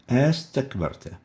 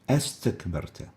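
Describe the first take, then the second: First: Only one vowel onset is pronounced before the verb. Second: Only one vowel onset is pronounced before the verb.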